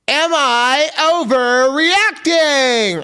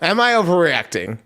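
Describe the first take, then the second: First: It is said in a showy game-show-host voice. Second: It is said in a plain, normal speaking voice. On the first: "I don't know why I said it like a like a fucking eighties game show host" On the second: "for real"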